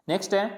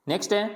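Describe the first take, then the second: The two takes are said the same way.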